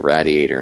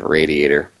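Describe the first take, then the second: First: Radiator is pronounced the local, regional way. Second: Radiator is pronounced the standard, usual way. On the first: "It's like we say radiator" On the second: "instead of radiator"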